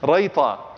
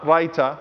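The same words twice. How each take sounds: First: It is pronounced the Arabic way. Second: It is pronounced like the food's name. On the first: It is a name meaning the last valued item. The speaker calls it right. "in the Arabic language" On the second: It names a food. The speaker calls it wrong. "not Raita, I'm not talking about a food here"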